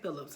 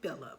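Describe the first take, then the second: First: The name ends with an s sound. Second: The name ends without an s sound. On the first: The speaker calls it wrong. "I keep saying Phillips" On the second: The speaker calls it right. "Her last name does not have an S"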